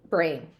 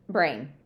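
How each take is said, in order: No difference in how they are said.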